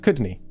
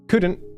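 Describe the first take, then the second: First: The word ends in a Scottish nae sound. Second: The word ends in a plain n't sound.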